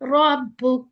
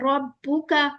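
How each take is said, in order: First: The word ends on a bare consonant. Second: The word ends on a final vowel. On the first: The speaker calls it right. "उसको प्रॉपर साकिन करें फिर वक़्फ़ करें" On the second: The speaker calls it wrong. "अब हम ऐसे नहीं कर सकते रब्बुका और यहाँ वक़्फ़ कर दिया"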